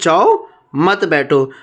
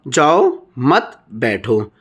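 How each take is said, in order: First: The pause comes right after 'जाओ'. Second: The pause comes right after 'मत'.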